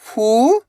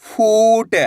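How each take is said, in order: First: फू, long pause, ट; फूट split slowly, rising first syllable. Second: फूट joined, long ऊ; blended word. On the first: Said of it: "एक अक्षर का उच्चारण करना है". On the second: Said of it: "तो मिलके बन जाएगा". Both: Shown as a demonstration.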